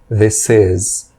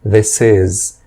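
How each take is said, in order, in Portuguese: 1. 'This' termina com som de s, ligado a 'is'. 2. 'This' termina com som de s, ligado a 'is'.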